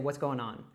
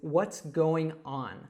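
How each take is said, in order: First: The phrase is said quickly and run together. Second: The phrase is said at a normal pace.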